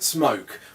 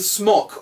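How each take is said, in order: First: The vowel is long, as in 'spoke'. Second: The vowel is short, as in 'lock'. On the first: The speaker calls it right. "found they're pronouncing it smoke" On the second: The speaker calls it wrong. "I've been saying smock all this fucking time"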